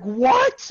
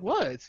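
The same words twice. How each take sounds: First: Loud, high mock-shocked "what?"; retold shock. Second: Said in the usual way. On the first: Girl he's seeing reacts to family news, retold shock. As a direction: blurt it out, imitating her shock.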